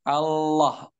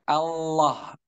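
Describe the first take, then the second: Both takes have the same delivery.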